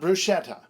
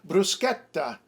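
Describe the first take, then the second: First: The middle consonant is a soft 'sh' sound. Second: The middle consonant is a hard 'sk' sound. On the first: The speaker calls it wrong. "not bruschetta" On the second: The speaker calls it right. "and bruschetta"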